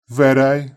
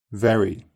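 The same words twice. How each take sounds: First: Very with a tapped r and "ay" ending; Very said "veray"; Brummie Very. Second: Said in the usual way. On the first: Shown as a demonstration. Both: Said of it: "Brummies may tap their R sounds".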